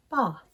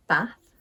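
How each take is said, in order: First: "bath" as "bahth", long vowel; southern long A. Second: "Bath" with short a as in cat; Northern short A. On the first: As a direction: say "bath" the RP way, ah as in father. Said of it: "In the south of England". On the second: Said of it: "I pronounce these words with an A sound". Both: Shown as a demonstration.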